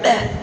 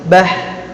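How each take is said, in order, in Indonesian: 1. Bunyi h di akhir terpotong pendek. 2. Bunyi h di akhir mengalir keluar bersama hembusan napas. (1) "Gak dibaca bah, gak gitu" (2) "tapi bah"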